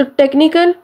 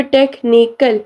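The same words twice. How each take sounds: First: Said in the usual way. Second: technical split into three beats, टेक-नी-कल; syllable by syllable. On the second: Shown as a demonstration. Teacher showing three syllables, technical said syllable by syllable. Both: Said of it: "three syllables हैं".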